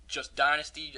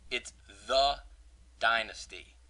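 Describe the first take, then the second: First: Said in the usual way. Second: "It's the Dynasty" with a pause after "the"; stress on THE. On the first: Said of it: "I've seen". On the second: Shown as a demonstration. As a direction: hold "the", then drop into Dynasty. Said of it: "It's not the Dynasty League".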